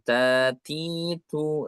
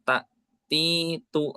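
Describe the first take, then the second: First: The syllables are soft and run smoothly together. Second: The syllables are harsh and clipped apart. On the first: The speaker calls it right. "lebih lebih lembut" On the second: The speaker calls it wrong. "tidak terlalu kasar"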